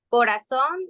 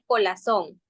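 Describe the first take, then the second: First: The middle consonant is an R sound. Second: The middle consonant is an L sound. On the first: The speaker calls it right. "en lugar de decir" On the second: The speaker calls it wrong. "sustituye fonemas R por L"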